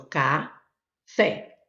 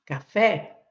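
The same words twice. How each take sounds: First: "café" split in two, ca, pause, fé; teacher separating the syllables of "café"; syllable-by-syllable demo. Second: Said in the usual way. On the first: Shown as a demonstration. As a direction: sound out "café" slowly, leaving FÉ on its own. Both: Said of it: "eu tenho a sílaba forte".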